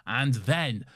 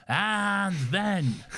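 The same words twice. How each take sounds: First: Said in the usual way. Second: AND THEN drawn out and pitched high; dramatic repeat. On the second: Acted. Reading a fan's email about the speech, dramatic stretched "and then".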